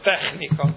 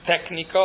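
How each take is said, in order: First: The middle consonant is a raspy throat sound. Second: The middle consonant is a hard k sound. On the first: The speaker calls it right. "hanem technika" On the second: The speaker calls it wrong. "Nem technika"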